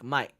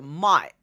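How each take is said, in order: First: It is said softly in a British accent. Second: It is said in an Australian accent.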